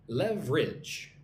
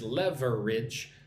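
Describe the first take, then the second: First: The word is said with only two syllables. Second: The word is said with three full syllables. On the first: The speaker calls it right. "Just two syllables" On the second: The speaker calls it wrong. "It looks like this word is leverage, but don't say it like that"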